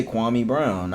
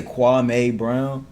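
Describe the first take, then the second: First: KWAME said "KWAH-mee", ending in an EE sound. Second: KWAME said "kwah-MAY", ending in an AY sound. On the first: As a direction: say Kwame to rhyme with "me". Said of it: "they used to say Kwame Brown". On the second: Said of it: "is it Kwame or Kwame". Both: Shown as a demonstration.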